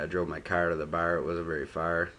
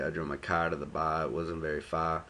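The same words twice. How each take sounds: First: It is said in a Buffalo accent. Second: It is said in a Boston accent.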